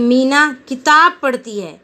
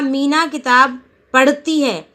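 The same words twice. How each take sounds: First: The stress falls on the second word. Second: The stress falls on the verb. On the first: She reads only a book and nothing else. "किताब शब्द पे जोड़ दिया कि ... ऐसे बोला" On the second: She is reading and doing nothing else. "पढ़ने पर जोर दिया"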